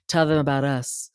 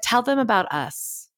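First: It is said in a sultry, seductive voice. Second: It is said in a plain, ordinary voice.

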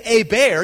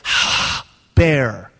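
First: The word begins with a vowel sound. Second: The word begins with a breathy h sound. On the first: The speaker calls it wrong. "So you don't say Eber" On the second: The speaker calls it right. "it's got a breathing mark in front of it"

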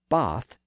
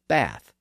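First: The vowel is the lower, back ah sound. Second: The vowel is the higher, front a sound. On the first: This is how it is said in southern England. "in southern England, you're likely to hear bath" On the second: This is how most other English speakers say it. "instead of bath"

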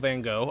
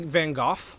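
First: The name ends without an F sound. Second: The name ends with an F sound. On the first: "pronounced by English people" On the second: "like with an F"

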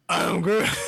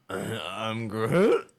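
First: It is said in an angry tone. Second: It is said in a confused tone.

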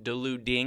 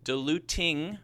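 First: The middle t is a soft flap like d. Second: The middle t is a clear t sound.

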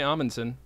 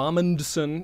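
First: The D sound in the middle is silent. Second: The D sound in the middle is pronounced. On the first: The speaker calls it right. "I would say Amundsen" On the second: The speaker calls it wrong. "I wouldn't go Amundsen. No, I'm not going to over"

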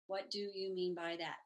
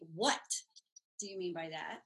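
First: The voice stays flat and even throughout. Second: The voice rises and falls throughout. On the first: The question carries little meaning. "if you say those five words in a monotone, they don't have a lot of meaning. ... Sounds a little robotic" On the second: The question carries a clear tone and meaning. "It changes the tone"

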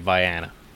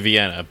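First: The first syllable sounds like 'vie'. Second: The first syllable sounds like 'vee'. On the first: This is how the locals say the town's name. "but they say Vienna" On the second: This is the usual pronunciation of the spelling. "It is literally Vienna"

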